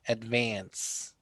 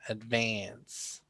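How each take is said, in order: The two takes are said the same way.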